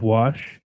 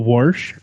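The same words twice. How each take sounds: First: It is said in a standard pronunciation. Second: It is said in a regional Ohio pronunciation. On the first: "instead of" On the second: "the wash instead of wash"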